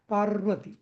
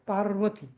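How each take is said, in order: The two takes are said the same way.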